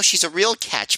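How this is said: It is said in a near-natural voice. The speaker calls it wrong.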